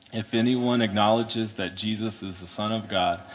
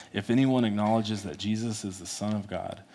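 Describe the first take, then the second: Both takes have the same delivery.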